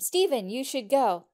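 It is said with lively enthusiasm.

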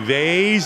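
It is said in a rough street Boston accent. This is how people talk out on the street. "the accent out on the street"

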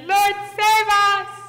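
It is yelled in terror.

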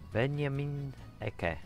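The name is said with German pronunciation. The speaker calls it right. "I should say it in Deutsch pronunciation"

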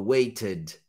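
It is said in a British English accent. "Aqui é o britânico"

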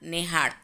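The first vowel is an 'e' sound.

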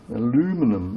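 It is said the American way, four syllables.

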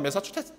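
It is said with a Seoul accent. The speaker calls it right. "서울 분들 시켜보세요. 금방 합니다"

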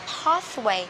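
It is said in a British accent. "Anh đó, họ sẽ đọc là pathway"

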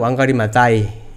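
The name is said with Kenyan-style pronunciation. This is how locals say it and understand it. The speaker calls it right. "현지에서는 왕가리 마타이"

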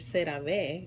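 The name is pronounced with Spanish sounds. "if you say it in Spanish"

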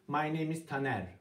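The sentence is said in a flat, level tone. The speaker calls it wrong. "Düz dersek duymuyorlar"

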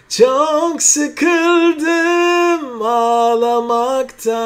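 The voice is thick and dark.

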